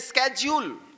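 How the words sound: The word begins with a 'sk' sound. This is the American way of saying it. "America में इसे ही बोलते हैं स्केड्यूल"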